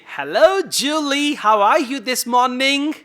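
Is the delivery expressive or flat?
expressive. It is spoken with lively, native-like delivery. The speaker calls it right. "try to imitate them"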